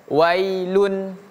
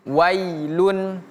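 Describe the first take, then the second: The two takes are said the same way.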